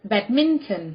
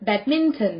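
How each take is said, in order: Both takes have the same delivery.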